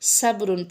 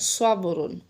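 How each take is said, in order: First: The first s sound is light and thin. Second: The first s sound is heavy and emphatic. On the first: The speaker calls it wrong. "सीन की आवाज़ नहीं निकालनी" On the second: The speaker calls it right. "सौत की निकालनी है"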